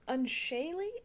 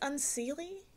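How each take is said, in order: First: The middle syllable sounds like 'shay'. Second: The middle syllable sounds like 'see'. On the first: The speaker calls it right. "I think is how you say it" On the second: The speaker calls it wrong. "It says unseely, but I've been told that's wrong"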